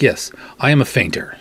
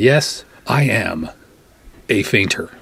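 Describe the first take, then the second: First: Said in the usual way. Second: "Yes, I am a fainter" drawn out slowly with a pause before "a fainter"; slow emphatic. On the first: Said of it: "I'm like". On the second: Retold or imitated. Insisting to the nurse, slow and emphatic. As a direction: spell out "I am a fainter" slowly, each word weighed. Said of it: "I said".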